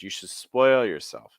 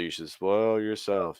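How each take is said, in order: First: The pitch moves a lot, stepping down. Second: The pitch stays flat with little movement. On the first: The speaker calls it right. "How much more dynamic it is?" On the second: The speaker calls it wrong. "That's just a lot flatter"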